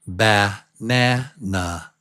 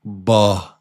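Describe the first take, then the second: First: "banana" drawn out, first a reduced to uh; slow schwa banana. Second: "Ba-na-na" split into three even beats; syllable by syllable. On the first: Teacher modelling the schwa in a word, slow and careful. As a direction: stretch "banana" slowly with a weak first syllable. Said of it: "But it's pronounced". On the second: Teacher breaking the word into syllables, spelled-out beats. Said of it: "so the word is actually". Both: Shown as a demonstration.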